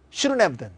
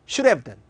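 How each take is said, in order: First: "shouldn't have done" as "shurun-ev-dun", the t dropped and the n clearly heard; n sound kept. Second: "should have done" as "shur-ev-dan", the d flapped to an r sound. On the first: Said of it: "N 발음이 들리면 부정문". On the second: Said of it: "르 발음이 들리면 긍정문". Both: Shown as a demonstration.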